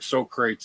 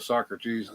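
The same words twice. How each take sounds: First: The name is said with a deliberately altered pronunciation. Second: The name is said with its standard pronunciation. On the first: The speaker calls it wrong. "fun to say them wrong" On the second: The speaker calls it right. "instead of"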